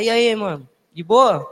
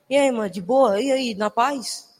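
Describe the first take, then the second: First: Slangy street greeting. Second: Easy, drawn-out street greeting, slowing at the end; relaxed slang hello, stretched out slowly; laid-back slang greeting. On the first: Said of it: "Aí você tem que falar". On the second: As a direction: greet them like a chill buddy. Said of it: "Você chega assim". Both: Shown as a demonstration.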